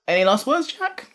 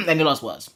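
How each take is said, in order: First: Voice cracking up an octave. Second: Said in the usual way. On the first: Real, not acted. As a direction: voice cracks high on Jack. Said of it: "my voice broke there". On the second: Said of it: "Sorry, I just".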